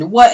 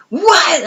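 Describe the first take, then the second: First: Much higher, louder shocked yelp; retelling her shocked scream at the news; screamed what. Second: Much higher, louder drawn-out shocked shriek; screamed what. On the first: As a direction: shriek it in disbelief. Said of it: "and I screamed". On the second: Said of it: "And I screamed". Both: Retold or imitated.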